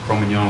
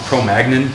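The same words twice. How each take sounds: First: The name is pronounced the French way. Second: The name is pronounced the English way. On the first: The speaker calls it right. "because it's a French word" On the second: The speaker calls it wrong. "It's not Cro-Magnon"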